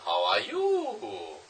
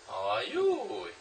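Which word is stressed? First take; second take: you; you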